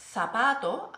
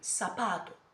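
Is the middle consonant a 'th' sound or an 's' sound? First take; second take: th sound; s sound. First: The z is pronounced like English 'th'. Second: The z is pronounced like English 's'. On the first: This is the form the learner keeps being corrected toward. "instead of saying" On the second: This is the form the learner actually uses. "it is called ceseo"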